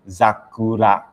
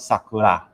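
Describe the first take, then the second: First: The word begins with a Z sound. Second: The word begins with an S sound. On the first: The speaker calls it right. "Here the pronunciation is zakura" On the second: The speaker calls it wrong. "here you do not pronounce sakura"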